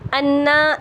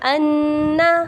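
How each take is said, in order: First: The doubled n is said plainly, without nasal hum. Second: The doubled n is held with a nasal hum. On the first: The speaker calls it wrong. "नहीं पढ़ेंगे" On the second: The speaker calls it right. "बल्कि हम कैसे करेंगे"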